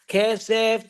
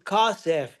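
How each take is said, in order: First: The first vowel is an e sound. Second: The first vowel is an a sound. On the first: This is the ordinary form of the word. "two segols" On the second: This is the form used at the end of a verse. "You'll see at the end of a sentence"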